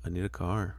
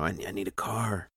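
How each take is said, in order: First: Soft monotone line; deadpan it, no pitch movement; Tobey Maguire monotone. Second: Soft flat monotone; Tobey Maguire monotone. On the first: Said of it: "I gotta get that Tobey Maguire monotone voice". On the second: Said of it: "that Tobey Maguire monotone voice". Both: Retold or imitated.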